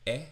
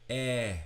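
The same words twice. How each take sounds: First: The vowel is held medium length. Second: The vowel is held long. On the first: "medium length" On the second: "for a long eh"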